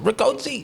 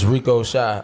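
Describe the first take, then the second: First: The name ends with a 'chee' sound. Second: The name ends with a 'shy' sound. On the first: The speaker calls it wrong. "they pronounce it Ricochi" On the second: The speaker calls it right. "it's Rico Shy"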